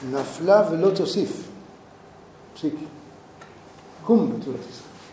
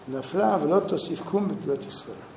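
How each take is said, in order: First: The verse breaks after תוסיף before קום. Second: The verse runs on without a break after תוסיף. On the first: The fallen one will fall no more; rise up. "הפיסוק שונה. נפלה ולא תוסיף. פסיק" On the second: The fallen one will not rise again. "זה ככה קוראים את הפסוק הזה בבבלי"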